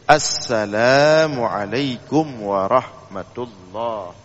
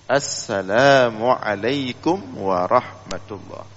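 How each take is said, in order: First: The opening 'as' sound is clearly pronounced. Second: The opening 'as' sound is clearly pronounced.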